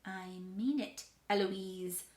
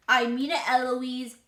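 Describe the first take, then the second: First: Restrained warning from the tutor; tutor's warning. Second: Very loud parroting; child mimicking tutor. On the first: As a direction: warn without raising the voice. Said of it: "And he says". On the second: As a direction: fire the warning right back, loudly. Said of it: "And I say". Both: A narrator's reading.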